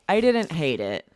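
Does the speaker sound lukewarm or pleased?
lukewarm. It sounds flat and unenthusiastic. The thing was only okay. "that sounds like mm, I also didn't love it"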